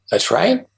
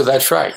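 First: "That's right." with the pitch rising on "right"; upward inflection. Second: Said in the usual way. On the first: Shown as a demonstration. Mirroring the counterpart's "That's right." with a question-like rise on "right". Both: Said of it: "you put an upward inflection on it".

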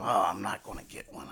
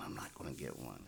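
First: Said in the usual way. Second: Murmured to yourself, much softer; quiet self-talk. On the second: Retold or imitated. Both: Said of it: "I keep saying to myself".

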